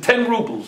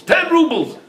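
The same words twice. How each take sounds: First: Said in the usual way. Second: Surprised echo. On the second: A narrator's reading. Buyer repeats the price back.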